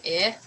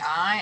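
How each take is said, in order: First: "I" said as a short clipped "ih". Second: "I" said as a long gliding "eye". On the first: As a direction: cut "I" short like the vowel in "it". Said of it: "it's saying I". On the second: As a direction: stretch "I" into the full "eye" sound. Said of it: "It's not saying I". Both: Shown as a demonstration.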